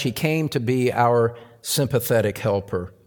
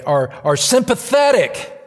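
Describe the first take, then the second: First: Said in the usual way. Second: "our, our" hit hard, shouted high; "our" preached out at full force, much higher and louder; stress on OUR. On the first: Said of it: "I emphasize the word". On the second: Shown as a demonstration. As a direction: punch "our" with a big raised cry. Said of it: "I emphasize the word today".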